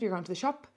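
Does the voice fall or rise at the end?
rise. The voice rises at the end. It is a question. "Up at the end"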